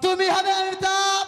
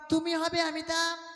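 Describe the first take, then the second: First: It is said loudly and forcefully. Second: It is said at a medium volume.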